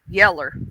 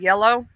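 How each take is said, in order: First: The word ends with an 'er' sound. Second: The word ends with an 'oh' sound. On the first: This is the older Southern way of saying it. "my mama used to say this yeller" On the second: This is the standard way of saying it. "instead of yellow"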